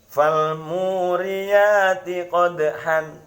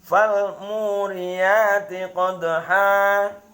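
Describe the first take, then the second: First: The last word ends with a nasal 'an' sound. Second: The last word ends with a long 'a' vowel. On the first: It follows the written tanwin as it stands. The speaker calls it wrong. "tulisannya seperti itu" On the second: The tanwin becomes a lengthened vowel when stopping. The speaker calls it right. "itu cara membaca mad iwad"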